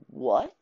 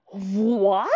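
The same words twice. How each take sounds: First: Short rising "what?" in disbelief; a brief, restrained stunned "what?"; stunned question. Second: Drawn-out rising "what?", hammed up; a bigger, incredulous "whaaat?"; exaggerated disbelief. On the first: Retold or imitated. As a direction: ask it small, as if taken aback. Stunned reaction to plot twist. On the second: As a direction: stretch it in mock astonishment. Repeats stunned reaction, bigger.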